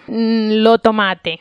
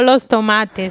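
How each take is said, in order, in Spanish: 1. Los sonidos de la s final se pierden. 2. Los sonidos de la s final se mantienen. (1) "la omisión de la S al final" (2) "No los tomates"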